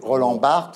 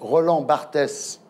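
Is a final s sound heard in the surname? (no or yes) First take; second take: no; yes. First: The surname ends without an s sound. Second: The surname ends with an audible s sound. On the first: This is how the name should be said. The speaker calls it right. "au lieu de prononcer Roland Barthes" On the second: This is how the president says the name. The speaker calls it wrong. "un président de la République qui prononce Roland Barthès"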